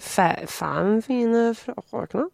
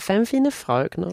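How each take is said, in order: First: It is said with a Norwegian-sounding accent. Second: It is said with a Danish-sounding accent. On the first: The speaker calls it right. "Men det är ju" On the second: The speaker calls it wrong. "så blir det danska, för det blir så här"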